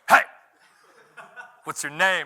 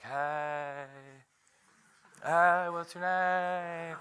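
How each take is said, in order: First: It is said in an intense, menacing tone. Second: It is said in a soft, mushy, eager tone.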